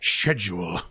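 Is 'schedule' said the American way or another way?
non-American. The word is said in a non-American way. "instead of schedule"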